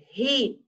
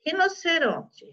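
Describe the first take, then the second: First: Said in the usual way. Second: Rinoceronte split into its syllables. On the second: Shown as a demonstration. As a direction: dictate Rinoceronte in pieces. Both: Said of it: "teacher separating syllables".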